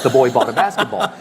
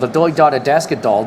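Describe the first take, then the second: First: The b in basketball is a normal b. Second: The b in basketball is replaced by d. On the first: It is said normally with the lips. "does not sound like" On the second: It is said without using the lips. "you're supposed to say uh, you know T for P and D for B"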